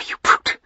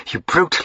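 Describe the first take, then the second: First: Whispered furious insult; hissed whisper. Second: High cry. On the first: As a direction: spit it out under the breath. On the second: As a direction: cry it out, breaking free. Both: Acted. Struggling, repeats the insult.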